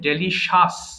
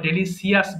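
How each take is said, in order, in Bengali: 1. মাঝের অংশটা সাধারণ 'sh', এখানে কোনো অতিরিক্ত স্বরধ্বনি নেই। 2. মাঝের অংশে 's' ধ্বনি ব্যবহার হয়: see-us। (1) "এটা হবে ডেলিশাস" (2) "অথবা ডেলিসিয়াস বলি"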